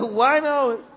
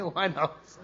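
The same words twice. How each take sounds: First: Higher and louder, disbelieving; astonished echo, pitched up; surprised question. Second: Laughing it out, softer; quiet embarrassed laugh on the answer; sheepish laugh. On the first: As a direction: shoot it back in disbelief. Amir surprised at the answer. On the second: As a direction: admit it through a chuckle. Jamaat admits one house, laughing. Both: Retold or imitated.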